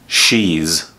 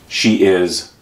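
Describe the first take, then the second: First: It is one syllable ending in a z sound. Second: It is said as two full separate words.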